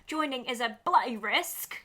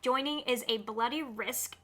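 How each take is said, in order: First: It is read in a put-on British accent. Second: It is read in the speaker's ordinary accent.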